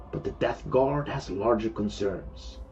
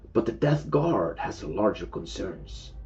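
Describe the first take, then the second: No difference in how they are said.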